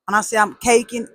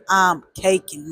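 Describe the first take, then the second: First: Said in the usual way. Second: I'm caking drawn out slowly; slow and emphatic on I'm caking. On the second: Real, not acted.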